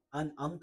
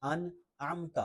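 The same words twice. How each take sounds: First: Quick "انعمت" as an-amta, plain a; wrong ain. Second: Careful "انعمت" with distinct throaty ain; clear ain. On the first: Teacher shows the mistake, "انعمت" lacking ain. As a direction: say "انعمت" without the throat sound. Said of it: "نہیں پڑھنا". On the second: Teacher models the correction, "انعمت" with clear ain. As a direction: make the ain in "انعمت" stand out. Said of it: "عین ہے تو واضح ہونی چاہیے". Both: Shown as a demonstration.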